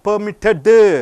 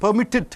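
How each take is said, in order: First: The word ends with an added vowel sound. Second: The word ends sharply on a d sound. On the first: The speaker calls it wrong. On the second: The speaker calls it right.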